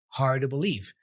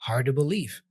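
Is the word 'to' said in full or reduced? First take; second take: reduced; reduced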